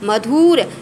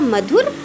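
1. दूसरा स्वर खिंचा हुआ, लंबा है। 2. दूसरा स्वर छोटा और तेज़ है। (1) "नहीं कभी मधुर नहीं होता है" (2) "कम समय लगा"

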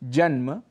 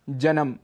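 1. शब्द के बीच में कोई अतिरिक्त स्वर नहीं जोड़ा जाता है। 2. शब्द के बीच में एक अतिरिक्त स्वर जोड़ा जाता है। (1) "इनके शुद्ध उच्चारण हैं" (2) "कहीं कहीं हम स्वरों को जोड़ भी देते हैं"

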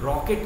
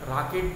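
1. पहला स्वर गोल किया हुआ 'aw' है। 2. पहला स्वर सादा खुला 'aa' है। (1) "रॉकेट होता है" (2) "राकेट नहीं"

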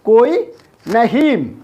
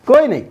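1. രണ്ടാമത്തെ വാക്ക് പൂർണ്ണമായ 'naheen' ശബ്ദമാണ്. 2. രണ്ടാമത്തെ വാക്ക് ചെറിയ 'nai' ശബ്ദമാണ്. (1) "അപ്പോൾ അതിൻ്റെ എഴുത്ത് ഭാഷ വരുന്നത് ഇങ്ങനെയാണ്" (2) "കോയി നൈ ഹിന്ദിക്കാർ ഇങ്ങനെ പറയാം"

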